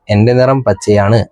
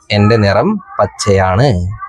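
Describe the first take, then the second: First: Said in the usual way. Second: A touch slow, reading the leaf's line. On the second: Shown as a demonstration. Teacher slowly reads the leaf's line to the class. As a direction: read it out slowly and carefully. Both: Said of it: "ഇല പറഞ്ഞു".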